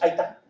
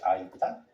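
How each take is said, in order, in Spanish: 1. Las palabras se pegan unas con otras, de forma informal. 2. Las palabras se pronuncian claramente y con distinción. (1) "cuando hablamos coloquialmente decimos" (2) "Bueno, sería"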